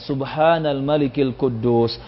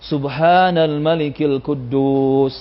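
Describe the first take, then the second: First: The phrase is said more loudly. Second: The phrase is said at its loudest. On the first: "lebih dikeraskan" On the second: "paling keras"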